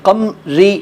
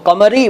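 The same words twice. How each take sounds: First: The vowel after m is dropped. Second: The vowel after m is pronounced. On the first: The speaker calls it wrong. "उससे कमरी नहीं बनेगा" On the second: The speaker calls it right. "तो कमरी बनेगा"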